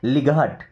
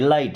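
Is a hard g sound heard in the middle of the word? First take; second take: yes; no. First: A hard g sound is said mid-word. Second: No g sound, just a long i. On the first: The speaker calls it wrong. "बच्चे क्या बोलते हैं? लिघाट।" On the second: The speaker calls it right. "लिघाट नहीं, लाइट है।"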